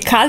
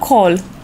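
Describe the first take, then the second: First: The vowel is a short open Romanian 'a'. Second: The vowel is a rounded English 'aw'. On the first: The speaker calls it wrong. "Este cal sau call?" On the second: The speaker calls it right. "Call of Duty, că nici un cal"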